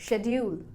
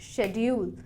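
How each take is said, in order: No difference in how they are said.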